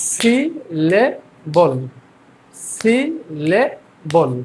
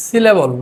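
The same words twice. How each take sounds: First: "syllable" very slow as si, le, bol; syllable by syllable. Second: Said in the usual way. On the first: Shown as a demonstration. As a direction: drill "syllable" in three spaced beats. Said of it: "আমরা ভেঙে ভেঙে". ("Syllable" তিন সিলেবলে ভেঙে ধীরে) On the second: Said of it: "তারপরটা আছে হচ্ছে".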